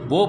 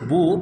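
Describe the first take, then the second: First: The syllable ends in an 'o' vowel. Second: The syllable ends in a short 'oo' vowel. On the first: The speaker calls it wrong. "বো পড়ি" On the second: The speaker calls it right. "বা পেশ বু না পড়ে"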